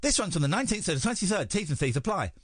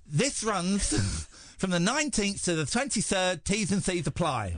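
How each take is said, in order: First: Careful read, still lisping; attempting a clean read; trying not to lisp. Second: Giggling while reading the ad; breaking up mid-read; laughing through the read. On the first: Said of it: "without the lisp". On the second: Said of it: "without the soggy end". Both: Shown as a demonstration.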